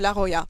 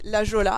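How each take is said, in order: First: The name is pronounced the Spanish way. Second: The name is pronounced the French way. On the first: The speaker calls it right. "ça se prononce à l'espagnol" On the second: The speaker calls it wrong. "la plupart d'entre vous disaient la Jola"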